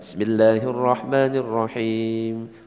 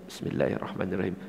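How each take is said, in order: First: It is recited aloud in a full voice. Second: It is recited softly under the breath. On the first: "Seperti tadi dijaharkan" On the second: "Ada yang disirkan tapi tetap dibaca"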